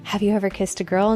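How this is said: It is asked in a sweet, cute way.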